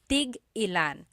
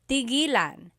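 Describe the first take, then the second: First: A glottal stop breaks the word before ilan. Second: The word runs smoothly with no glottal stop. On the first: It asks how many of each. "you have to have that glottal stop" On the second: It means to stop. "When there's no hyphen"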